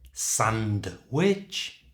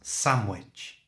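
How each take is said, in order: First: The D sound in sandwich is clearly pronounced. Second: The D sound in sandwich is left out.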